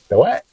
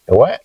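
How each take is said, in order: First: The what? asked higher with a rise; prompting. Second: Said in the usual way. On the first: Shown as a demonstration. Teacher coaxing his wife to answer, higher prompting rise. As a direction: lift the what? up to coax an answer. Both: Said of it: "prompting wife for answer".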